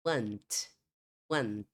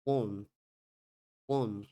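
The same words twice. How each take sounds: First: American "want" with an open vowel; American English want, open "ah"; American pronunciation. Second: British "Want" with a rounded o; British English Want, closed vowel; British pronunciation. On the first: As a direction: say want as "wahnt". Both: Shown as a demonstration. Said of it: "uma pronúncia mais aberta das vogais".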